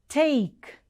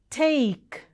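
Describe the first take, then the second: The two takes are said the same way.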